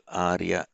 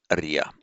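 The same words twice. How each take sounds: First: Arya with a long first a; Sanskrit long vowel. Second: Arya as a-ri-ya, short first vowel; Pali light syllables. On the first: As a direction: say arya as AAR-ya. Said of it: "rather than the long vowel followed by". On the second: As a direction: say arya as quick uh-REE-ya. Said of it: "change that into two light syllables". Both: Shown as a demonstration.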